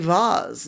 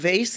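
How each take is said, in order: First: It is said in a British accent. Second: It is said in an American accent.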